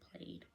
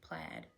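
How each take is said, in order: First: The vowel is a long A sound. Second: The vowel is a short A sound. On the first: The speaker calls it wrong. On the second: The speaker calls it right. "short vowel A that makes A"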